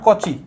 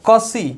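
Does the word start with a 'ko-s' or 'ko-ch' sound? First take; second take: ko-ch; ko-s. First: The middle consonant is a ch sound. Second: The middle consonant is an s sound. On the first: The speaker calls it wrong. "बहुत जन इसको कौची बोलता है but ये गलत है" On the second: The speaker calls it right. "यहाँ पे जो स है"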